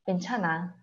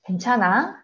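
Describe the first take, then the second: First: The voice falls at the end, as a statement. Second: The voice rises at the end, as a question.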